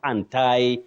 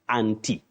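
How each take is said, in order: First: It uses the fashionable non-standard pronunciation. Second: It uses the standard British pronunciation. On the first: The speaker calls it wrong. "people find it to be fashionable to say anti" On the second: The speaker calls it right. "under what we call received pronunciation, that is the standard form of British pronunciation"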